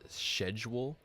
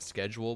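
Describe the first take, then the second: First: The word begins with a 'sh' sound. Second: The word begins with a 'sk' sound. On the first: "As in like Silent C?" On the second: "Not schedule"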